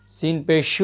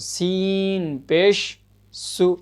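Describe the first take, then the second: First: The parts are run together without a break. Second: The parts are separated by short breaks. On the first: The speaker calls it wrong. "अगर एक साथ इसको हिज्जे करेंगे तो हो क्या जाएगा" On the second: The speaker calls it right. "इसलिए हमको तोड़ के पढ़ना है इसको"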